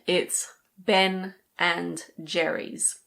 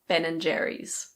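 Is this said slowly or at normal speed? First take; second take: slowly; normal speed. First: It is said slowly, with every word clear. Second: It is said at normal speed, words run together. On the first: "If you say it slowly" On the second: "But normally when we speak, we just say Ben and Jerry's"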